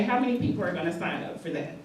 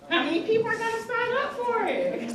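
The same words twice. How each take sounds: First: Said in the usual way. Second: Much higher, sing-song re-ask of the question; coaxing repeat. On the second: Real, not acted. Host urging the room to raise hands, in a high coaxing call. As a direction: pitch it up high to coax the crowd.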